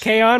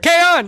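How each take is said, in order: First: The word is said at normal volume. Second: The word is shouted loudly. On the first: It names the first season. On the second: It names the second season.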